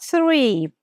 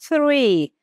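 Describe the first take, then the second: The two takes are said the same way.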